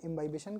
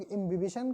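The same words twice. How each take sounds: First: इम्बाइबिशन with "bai" after "im"; इम्बाइबिशन, second syllable rhyming with "buy"; speaker's preferred pronunciation. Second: इम्बिबिशन with short "bi" after "im"; इम्बिबिशन, every i short, no "bai"; others' pronunciation. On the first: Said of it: "हम इम्बाइबिशन कहते हैं". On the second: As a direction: say इम्बिबिशन as im-bi-bi-shan. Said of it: "कुछ लोग इम्बिबिशन कहते हैं". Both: Shown as a demonstration.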